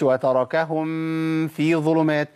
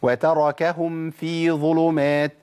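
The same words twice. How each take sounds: First: "وتركهم في ظلمات" with the meem of "وتركهم" swallowed into "في"; the wrong way, demonstrated; hidden meem, wrong. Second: "وتركهم في ظلمات" with the meem of "وتركهم" clearly closed before "في", slow. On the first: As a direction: run "وتركهم" into "في" without closing the lips. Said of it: "ما أقولش". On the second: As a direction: say "وتركهم في ظلمات" slowly, lips shut on the meem. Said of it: "مثال تاني مع الفاء". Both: Shown as a demonstration.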